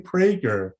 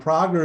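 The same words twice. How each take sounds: First: The first vowel is a strong A sound. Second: The name is said with a German pronunciation. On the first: This is how the family says the name. "We go with a, a strong A, so we say Prager" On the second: This is the common pronunciation in German-speaking countries. "in Germany and Germanic countries, um, Prager is the more common pronunciation"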